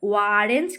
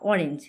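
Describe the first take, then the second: First: The word begins with a w sound. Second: The word begins with a plain vowel. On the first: The speaker calls it wrong. "কেউ বলছি? বলি না।" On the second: The speaker calls it right. "এটা normally আমরা বলছি"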